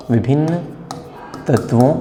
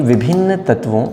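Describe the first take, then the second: First: Each word apart with long pauses; dictation pace. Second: Said in the usual way. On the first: Shown as a demonstration. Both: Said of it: "आप भी अपना note करते जाइए".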